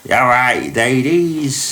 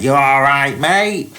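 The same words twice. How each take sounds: First: Lightly done Cockney greeting, a little higher; a hint of a cheeky Cockney chatting up ladies; Cockney impression. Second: Mock Cockney, pitched up high and loud; thick Cockney. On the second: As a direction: play a cheeky London geezer with a thick Cockney accent. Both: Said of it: "in a really thick Cockney accent".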